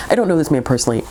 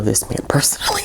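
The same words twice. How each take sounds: First: Said in the usual way. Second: Mock-secretive whisper; whispered aside. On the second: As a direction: lean in and whisper it as a joke. Joking aside about the author.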